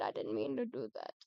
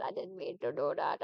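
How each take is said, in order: First: Much lower, mock solemn voice; deep apology. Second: Said in the usual way. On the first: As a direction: drop into a low rumble. Repeated apology to Fred.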